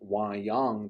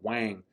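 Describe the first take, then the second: First: All the syllables are said out in full. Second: The syllables are merged into one short syllable. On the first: "instead of saying wayang" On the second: "they'll just glue those sounds together"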